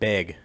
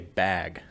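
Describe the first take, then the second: First: The vowel sounds like the e in bed. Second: The vowel sounds like the a in cat. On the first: "they call it beg" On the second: "they don't say bag"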